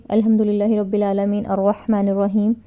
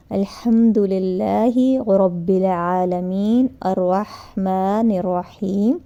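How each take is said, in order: First: Fast, rattled-off Quran verse; rushed recitation. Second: Very slow, every word drawn out; slow recitation. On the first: Teacher showing the wrong, hurried way to recite: rushed and run together. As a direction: gabble the words as if in a hurry. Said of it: "جیسے کچھ لوگ بڑی تیز پڑھتے ہیں". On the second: Teacher showing the right way to recite Al-Hamd: very slow and calm. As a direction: recite it unhurried, giving each syllable its place. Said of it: "اس طرح پڑھنا چاہیے". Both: Shown as a demonstration.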